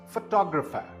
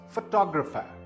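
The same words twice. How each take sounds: First: The stress is on the second syllable. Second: The stress is on the second syllable.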